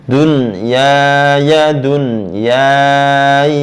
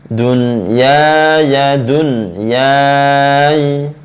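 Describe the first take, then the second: Both takes have the same delivery.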